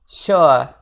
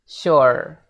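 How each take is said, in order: First: The final R is silent. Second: The final R is clearly pronounced. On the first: "versi British English ... Jadi R-nya di silence" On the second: "versi American English-nya ... Jadi R-nya rada padat"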